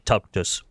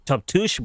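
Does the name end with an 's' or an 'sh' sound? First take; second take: s; sh. First: The name ends with an 's' sound. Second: The name ends with an 'sh' sound. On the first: This is the speaker's own way of saying it. "but I say Tuptus" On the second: This is how the name is properly pronounced. "It's pronounced Tuptush"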